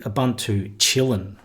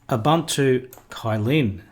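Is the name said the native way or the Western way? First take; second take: native; Western. First: The name is said in its native pronunciation. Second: The name is said in the common Western way. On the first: "if you were to pronounce it by its native name" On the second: "that's how most of us in the West pronounce that"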